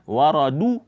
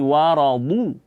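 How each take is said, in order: First: The d sound is a plain d. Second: The d sound comes from the tongue's side. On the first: The speaker calls it wrong. "jangan dibaca waradu, eh, da" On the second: The speaker calls it right. "dari tepi lidah"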